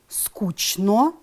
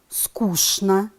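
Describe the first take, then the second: First: It is read exactly as it is spelled. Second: It is said with its normal spoken pronunciation. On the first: "Пишем" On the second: "произносим"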